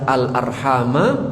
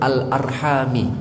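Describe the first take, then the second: First: The word ends with an 'a' vowel. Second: The word ends with an 'i' vowel. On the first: The word is joined to the command to fear God. "dengan mansub dengan fathah" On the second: The word is joined to what people ask by. "dengan kasrah"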